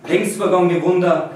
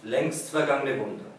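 First: "vergangene" with broad Tyrolean vowels, "Wunder" as "Wunda"; Tyrolean dialect. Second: Said in the usual way. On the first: Shown as a demonstration. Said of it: "which is like Tyrolean dialect". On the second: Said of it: "I translated back into German".

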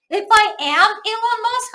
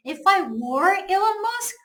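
First: Slow, deliberate English example; slow wrong example. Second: Slow, careful English example; slow correct example. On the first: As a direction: spell out the wrong form slowly. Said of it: "현재 동사 쓰면 안 됩니다". (틀린 예문을 천천히) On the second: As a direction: stress were, read it slowly. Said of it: "과거 동사를 써야 돼요". (맞는 예문을 천천히) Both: Shown as a demonstration.

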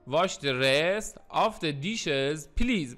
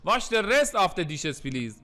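First: Slow, word-by-word teaching delivery; very slow model reading. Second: Said in the usual way. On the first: Shown as a demonstration. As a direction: stretch out each word for learners. Teacher repeats example word by word.

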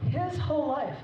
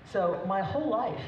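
First: His said high and hit hard as a correction; stress on his. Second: Said in the usual way. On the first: Real, not acted. Mother correcting herself mid-toast, stress on his. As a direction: fix the slip by punching his.

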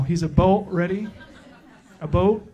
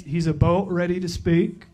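First: "a boat" laughed through in a light mock Canadian accent; Canadian accent retry. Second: "a boat" said as a boat in a lightly faked Canadian accent, rising at the end; a weak stab at a Canadian "about"; bad Canadian accent. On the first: Retrying the joke for the crowd, a mock Canadian accent with a laugh. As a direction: try the Canadian "about" again, giggling. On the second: Introducing a guest pastor, a poorly faked Canadian accent. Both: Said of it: "That was terrible".

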